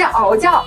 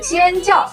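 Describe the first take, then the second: First: The first syllable is pronounced ao. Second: The first syllable is pronounced xian. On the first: The speaker calls it wrong. "不念敖，不是敖教" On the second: The speaker calls it right. "注意这个字念仙"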